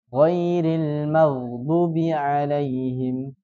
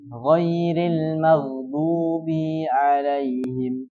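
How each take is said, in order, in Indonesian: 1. Vokal panjang pada du dipendekkan. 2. Vokal pada bi dipanjangkan. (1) "Tapi dia hilangkan" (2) "Memanjangkan bi"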